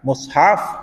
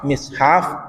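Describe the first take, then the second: First: The first vowel is u. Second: The first vowel is i. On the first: "Dhammul mim" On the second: "kasruha ban kasrana mim"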